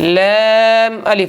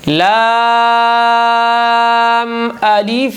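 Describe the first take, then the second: First: The first vowel sounds like 'ai'. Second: The first vowel is an open 'aa'. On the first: The speaker calls it wrong. "ऐसे नहीं पढ़ना" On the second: The speaker calls it right. "ला मुंह खोल के"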